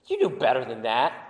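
The tone is scornful and belittling. The child is being put down. The speaker calls it wrong. "you can say it in a way to try to belittle him"

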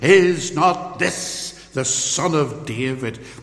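It sounds like a confident, declared statement. They are declaring that he is the Messiah. "like a proclamation, like an affirmation"

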